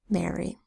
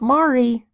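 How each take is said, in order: First: The first vowel sounds like 'air'. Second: The first vowel sounds like 'ar'. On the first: The speaker calls it right. "R that says air" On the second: The speaker calls it wrong. "Not Mari"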